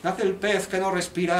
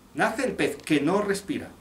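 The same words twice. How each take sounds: First: The line is said flat, all on one level. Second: The line is said with varied, expressive delivery. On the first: The speaker calls it wrong. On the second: The speaker calls it right.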